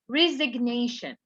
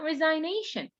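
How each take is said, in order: First: The g sound is pronounced. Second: The g sound is silent. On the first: The speaker calls it right. "This is resignation. ... Why do we pronounce the G here?" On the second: The speaker calls it wrong. "it's not resignation"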